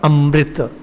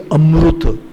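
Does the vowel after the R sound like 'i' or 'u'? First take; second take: i; u. First: The syllable after M is said as 'rit'. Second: The syllable after M is said as 'rut'. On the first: This is how the north says it. "North Indians took the last part" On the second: This is how the south and Maharashtra say it. "South Indians and Maharashtra pronounce it as Ru"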